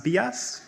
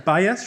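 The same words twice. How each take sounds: First: "bias" said slowly as "bee-ass"; bias mispronounced. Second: Said in the usual way. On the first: Shown as a demonstration. Student mock-decrees a new pronunciation, "bias" as bee-ass. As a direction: give "bias" an ee in the first syllable, bee-ASS. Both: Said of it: "shall be pronounced in the following manner".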